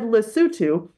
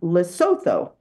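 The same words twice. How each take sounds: First: The name is said the local way. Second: The name is said the American way. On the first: "he said Lesotho ... you pronounced it correctly" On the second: "which most Americans might pronounce as Lesotho"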